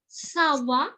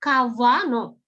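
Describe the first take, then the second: First: The first sound is a soft S. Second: The first sound is a hard K. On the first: The speaker calls it right. "akhirnya C-nya dibaca S" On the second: The speaker calls it wrong. "Jadi nggak kawano"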